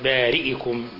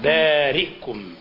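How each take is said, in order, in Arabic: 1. تُنطق الهمزة بحركة. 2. تُنطق الهمزة بدون حركة. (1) "مش بارئكم" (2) "بإسكان الهمزة"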